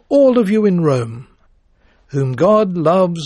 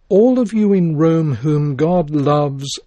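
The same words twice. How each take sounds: First: There is a pause right after Rome. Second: It runs on without a pause after Rome. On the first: The whole population of the city is addressed. The speaker calls it wrong. "By placing a pause after all of you in Rome" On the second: Only the believers in the city are addressed. The speaker calls it right. "That is, the Christians, all whom God loves"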